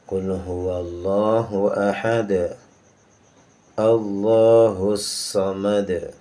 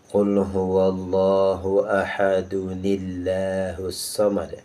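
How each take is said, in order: First: The phrases are separated with no added nun sound. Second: The phrases are joined with an added 'nun' sound. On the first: The reciter stops between the two verses. "Kalau kita baca secara normal sebagaimana setiap hari kita dengar, maka nun wiqayahnya tidak pernah ada" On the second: The reciter continues straight into the next verse. "apabila kita melanjutkan qul huwallahu ahad kepada Allahus samad"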